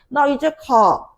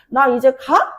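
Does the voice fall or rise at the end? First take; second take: fall; rise. First: The voice falls at the end. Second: The voice rises at the end.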